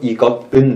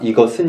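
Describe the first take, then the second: First: Each syllable is pronounced separately, without linking. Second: The final consonant links into the last syllable. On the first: "別にして読むと、" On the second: "発音があるから、이것은になる。"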